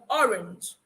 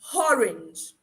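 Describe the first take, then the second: First: The word begins with a vowel sound. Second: The word begins with an added h sound. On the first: "instead of" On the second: "where that H should not be is where they'll add the H"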